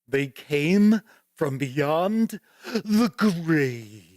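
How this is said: It is said in a put-on character voice. "I gotta do the voice"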